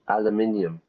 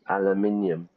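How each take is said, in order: First: It is said the British and Irish way. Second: The same.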